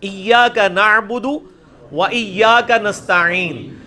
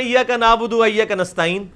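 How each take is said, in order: First: Slow recitation, ع pressed from the throat in نعبد and نستعین; correct throaty ain. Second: Quick, careless reading, no throaty ain in نستعین; everyday Urdu نعبد, ain flattened to a vowel; mistaken recitation. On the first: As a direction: stretch ایاک and نستعین, articulating every ain. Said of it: "عین ہے". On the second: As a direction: run through it with plain vowels for ع in نعبد and نستعین. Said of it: "غلط پڑھ رہے ہیں". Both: Shown as a demonstration.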